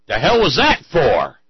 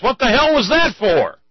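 First: Slow, loud, higher demand; indignant shout. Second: Indignant shout. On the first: Punched man to his attacker, slow loud demand. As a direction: demand an answer slowly and loudly. Goldberg gets up, asks why. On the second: Punched man demands why in joke. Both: Acted.

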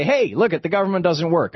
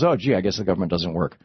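First: High-pitched, hey-look-everyone call; pitched-up imitation of crowing politicians; mock conservatives' announcement. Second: Low, resigned "oh, gee" voice; imitated credulous shrug, pitched down; mock gullible public. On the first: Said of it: "and then they say". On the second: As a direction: give in like a duped bystander. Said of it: "And everybody goes".

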